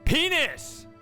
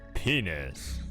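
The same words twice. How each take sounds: First: The word is screamed at full volume. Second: The word is said at a low, normal volume. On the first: "Scream it like I did" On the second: "I could scream it, or I could be like"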